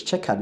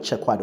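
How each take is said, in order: First: CHECKERED said as two syllables, "CHECK-ud"; no w sound in CHECKERED; correct pronunciation. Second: CHECKERED said as "CHECK-wad", with a w; mispronounced. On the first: Teacher correcting the word checkered, correct pronunciation. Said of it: "it's checkered". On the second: Teacher showing the wrong checkered, mispronounced. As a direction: put a w into CHECKERED. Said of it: "not checkered or something". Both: Shown as a demonstration.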